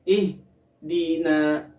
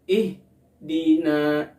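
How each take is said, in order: The two takes are said the same way.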